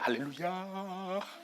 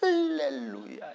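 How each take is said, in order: First: The stress is on the last syllable. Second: The stress is on the first syllable. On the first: "마지막에 해도 돼" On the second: "앞에 액센트를 해도 돼"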